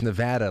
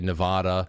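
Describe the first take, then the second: First: The stressed vowel sounds like the a in dad. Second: The stressed vowel sounds like the a in father. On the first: The speaker calls it right. "it's Nevada, like dad, ad" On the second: The speaker calls it wrong. "I used to say Nevada"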